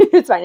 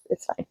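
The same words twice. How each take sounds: First: With a light laugh. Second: Muttered under the breath; quietly brushing it off. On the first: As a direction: laugh it off cheerfully. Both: Real, not acted.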